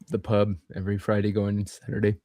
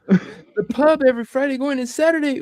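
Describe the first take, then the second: First: It is said flatly, without enthusiasm. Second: It is said with more enthusiasm.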